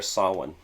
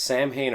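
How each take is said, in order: First: "Samhain" said as SOW-in, with silent m; Irish pronunciation. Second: "Samhain" said as it is spelled, SAM-hayn; anglicized pronunciation. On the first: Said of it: "the correct pronunciation is Samhain". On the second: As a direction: say "Samhain" like the two words Sam and Hain. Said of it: "is it pronounced". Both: Shown as a demonstration.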